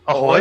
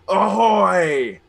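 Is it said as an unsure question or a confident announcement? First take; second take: unsure question; confident announcement. First: It is said as an unsure, rising question. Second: It is said as a confident, manly announcement.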